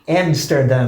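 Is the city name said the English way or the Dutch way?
English. The name is said with English sounds. The speaker calls it wrong.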